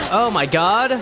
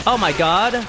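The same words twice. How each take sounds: The two takes are said the same way.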